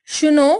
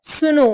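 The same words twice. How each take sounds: First: SH starting सुनो; Bengali pronunciation. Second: Said in the usual way. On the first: Shown as a demonstration. Teacher showing Bengali speech, सुनो with sh for s. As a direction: say सुनो as "shuno". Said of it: "Bengali उच्चारण". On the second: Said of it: "Hindi उच्चारण".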